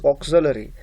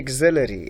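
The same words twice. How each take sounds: First: The first vowel sounds like 'August'. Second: The first vowel does not sound like 'August'. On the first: The speaker calls it right. "The correct pronunciation of this word is auxiliary, like August" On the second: The speaker calls it wrong. "Some students mispronounce this word. They say auxiliary"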